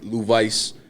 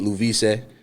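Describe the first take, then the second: First: The surname is pronounced with English sounds. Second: The surname is pronounced with Spanish sounds. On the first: This is how English speakers usually say it. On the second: This is how Spanish speakers say it. "for the Spanish people, y'all know how to say my last name"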